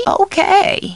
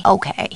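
First: High-pitched, lilting okay; bright agreement. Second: Brief, low-key okay; subdued agreement. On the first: Housekeeper agreeing on the phone, high lilt. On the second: Housekeeper agreeing on the phone, subdued. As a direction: keep it short and understated. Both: Acted. Alternate takes of stock line.

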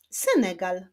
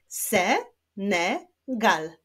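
First: Said in the usual way. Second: "Senegal" very slowly, in three separate syllables. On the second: Shown as a demonstration. Teacher clapping a country's name for pupils, "Senegal" slowly split. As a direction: clap out "Senegal", pausing between syllables. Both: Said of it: "Wyklaszczmy sylaby w nazwie tego kraju".

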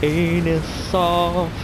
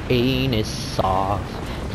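First: "Anus off" high and stretched; high drawn-out. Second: "Anus off" low and very slow; low drawn-out. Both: Shown as a demonstration. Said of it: "He's gonna eat my anus off".

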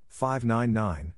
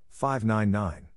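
Both takes have the same delivery.

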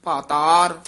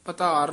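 First: ਪਾਤਾਰ with a long first a and a clear dental t; ਪਾਤਾਰ spoken slowly and exactly, the right way; correct pronunciation. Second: ਪਤਾਰ said with a short first vowel, the wrong way; ਪਤਾਰ with a short a, marked as wrong; wrong pronunciation. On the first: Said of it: "ਪਾਤਾਰ ਤੱਤੇ ਨਾਲ ਉਚਾਰਨ ਕਰਨਾ ਹੈ". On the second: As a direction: say ਪਤਾਰ clipped and short, as not to do it. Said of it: "ਇਹ ਪਤਾਰ ਨਹੀਂ ਕਹਿਣਾ". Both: Shown as a demonstration.

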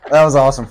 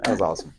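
First: Much louder, punchy and thrilled; excited. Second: Said in the usual way. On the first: Real, not acted. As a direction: belt it out with delight. Repeats own reaction line louder.

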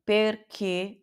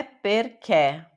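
First: "perché" slow, ending in a tight "kê"; slow closed-vowel "perché"; closed final e. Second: "perché" ending in a wide open "ké"; wrong open-vowel "perché"; open final e, mistaken. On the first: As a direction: say "perché" with the last e closed, as in "você". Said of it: "é fechado". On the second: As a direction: say "perché" with the last e open as in Portuguese "pé". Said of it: "não é perché". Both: Shown as a demonstration.

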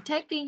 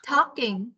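First: Taking with a tay vowel; misread as taking. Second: Talking with the l vowel, tor-king; talking, not taking. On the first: Teacher naming the child's mistake, wrong form. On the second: Teacher correcting the child's misreading, careful model. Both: Shown as a demonstration. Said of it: "Không phải taking nhá".

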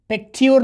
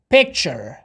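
First: پیکتیور with a "t-yu" in place of "ch"; the mistaken reading پیکتیور, t and u sounded out; wrong spelling pronunciation. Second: پیکچر with a clear "ch" in the middle; tu said as "che". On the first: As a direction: say پیکتیور as "pek-tiyur". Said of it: "نمیخوانیم". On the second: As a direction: say پیکچر as "pek-cher", tu turned to "ch". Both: Shown as a demonstration.

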